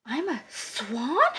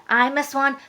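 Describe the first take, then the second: First: Slow, soft disbelief rising on swan; astonished question. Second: Said in the usual way. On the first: A narrator's reading. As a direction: ask it in slow, dawning wonder. Duckling learns he is a swan.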